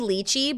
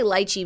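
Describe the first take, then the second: First: The first syllable sounds like 'lee', as in leech. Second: The first syllable sounds like 'lie', not leech. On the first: "It could be lychee" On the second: "but I say lychee because I don't want to say leech"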